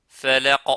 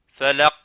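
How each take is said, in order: The two takes are said the same way.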